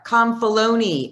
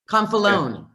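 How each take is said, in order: First: The name is said with an added syllable. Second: The name is said without an added syllable.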